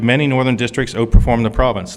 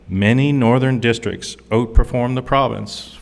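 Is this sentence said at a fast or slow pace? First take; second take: fast; slow. First: The sentence is said at ordinary speed. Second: The sentence is said slowly and deliberately.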